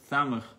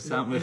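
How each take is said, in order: First: The word begins with a lisped th sound. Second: The word begins with a clear s sound. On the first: "Thamach instead of samach" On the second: "instead of samach"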